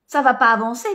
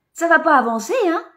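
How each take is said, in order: First: Said in the usual way. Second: Raised, chiding "Ça va pas avancer"; "Ça va pas avancer" said higher as a reproach; higher scolding take. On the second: Acted.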